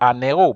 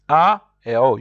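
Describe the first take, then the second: First: The n sound links into the second word. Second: The two words are kept separate, with no linking. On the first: The speaker calls it wrong. "If you are to join, it would be un héros" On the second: The speaker calls it right. "you will always say un héros"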